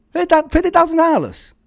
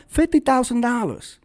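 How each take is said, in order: First: Higher and louder, stressing thousand; incredulous emphasis. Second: Said in the usual way. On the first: Real, not acted. Exposing a tiny nonprofit budget, incredulous. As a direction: blurt it out in disbelief. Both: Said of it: "repeated louder".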